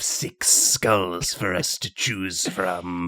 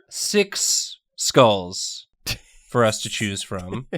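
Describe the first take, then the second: First: It is spoken in a put-on, sinister necromancer voice. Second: It is spoken in an ordinary, normal voice. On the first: The speaker calls it right. "say that in a necromancer voice" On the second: The speaker calls it wrong. "You can't say it so normally"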